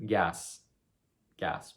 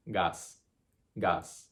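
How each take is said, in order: First: Said in the usual way. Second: Gas as gahs, open pure A; pure Spanish A. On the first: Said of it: "One syllable". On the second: Shown as a demonstration. Teacher giving the Spanish answer, gas as gahs. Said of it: "that A sound is the pure A".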